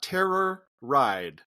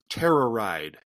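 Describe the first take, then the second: First: It is said as two separate words. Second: It is blended into one word, like terrorize. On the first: The speaker calls it wrong. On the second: The speaker calls it right. "It's like terrorize, but with a D instead of a Z"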